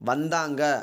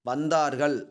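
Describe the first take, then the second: First: The word ends in a short nasal -anga. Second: The word ends in a full -argal. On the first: This is the everyday spoken form. "பேச்சு வழக்கு" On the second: This is the pure literary form. "தூய தமிழ் சொல்"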